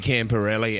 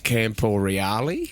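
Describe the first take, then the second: First: The name ends with an 'elli' sound. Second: The name ends with an 'eale' sound. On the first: This is how commentators said the name for years. The speaker calls it wrong. "for years the commentators called him that" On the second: This is the name's actual pronunciation. The speaker calls it right. "then we found out it was Camporeale"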